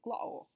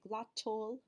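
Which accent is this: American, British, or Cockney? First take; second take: Cockney; British. First: It is said in a Cockney accent. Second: It is said in a standard British accent. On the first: "And in Cockney, they say" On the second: "in standard British, they would say"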